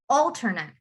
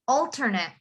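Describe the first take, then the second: First: The last syllable is a short, weak 'et'. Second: The same.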